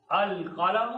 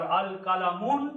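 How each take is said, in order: First: "अल कलम" as al-qalamu, open final vowel; single pesh. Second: "अल कलमुन" with a sounded final -un; wrong tanween. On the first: Teacher showing effect of al, "अल कलम" read al-qalamu. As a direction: end "अल कलम" on -mu with no n. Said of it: "अल आ जाने की वजह से". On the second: Teacher showing the mistake, "अल कलमुन" ending in nun. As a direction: add an n to the end of "अल कलमुन". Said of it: "अल कलमुन गलत हो जाएगा". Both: Shown as a demonstration.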